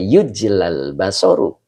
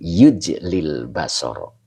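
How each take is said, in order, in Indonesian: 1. Kata pertama punya 'a', kata kedua berakhir dengan 'u'. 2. Kata pertama punya 'i', kata kedua berakhir dengan 'a'. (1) "makanya tidak dibaca yujlal basoru" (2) "Tetapi yujlil basoro"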